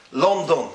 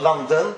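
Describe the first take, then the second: First: "London" as LON-don; rounded O in "London"; Yiddish pronunciation. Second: "London" as LUN-den; English pronunciation. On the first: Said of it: "That's how they say it". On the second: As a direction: open short first vowel in "London". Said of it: "how you say it in English". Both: Shown as a demonstration.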